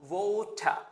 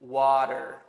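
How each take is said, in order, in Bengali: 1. এটি ব্রিটিশ উচ্চারণে বলা হয়। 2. এটি আমেরিকান উচ্চারণে বলা হয়। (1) "ব্রিটিশ স্টাইলে আরেকটু কঠিন, এটাকে বলে ওয়াটার" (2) "আমেরিকান স্টাইলে এটাকে বলা হচ্ছে ওয়াটার"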